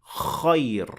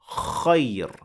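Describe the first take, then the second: First: The first sound is open with unrounded lips. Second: The first sound is open with unrounded lips.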